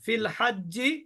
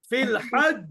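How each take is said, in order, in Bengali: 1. এটি কোনো কম্পন ছাড়াই শেষ স্বরবর্ণে গড়িয়ে যায়। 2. এটি ব্যঞ্জনে থেমে যায় এবং প্রতিধ্বনিত কম্পন হয়। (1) "ফিল হাজ্জি কলকলা হবে না" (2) "আমি যদি এখানে থেমে যাই"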